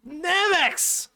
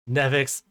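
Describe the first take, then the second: First: Squealing with sudden excitement; excited high shout. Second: Said in the usual way. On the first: Real, not acted. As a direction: shout the name high and loud. Excitedly calling out viewer's name.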